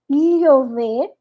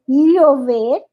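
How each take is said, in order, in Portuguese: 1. O ll soa como um l duplo claro. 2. O ll soa como um l duplo claro.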